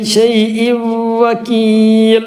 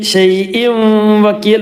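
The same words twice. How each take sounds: First: The n merges into a nasalized, doubled w. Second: The n is pronounced clearly before the w. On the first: The speaker calls it right. "തൻവീനെ വാവിലേക്ക് കൊടുത്ത് വാവ് മണിക്കുക" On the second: The speaker calls it wrong. "ഷൈഇൻ വകീൽ എന്നല്ല"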